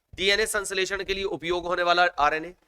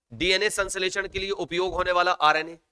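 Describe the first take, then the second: The two takes are said the same way.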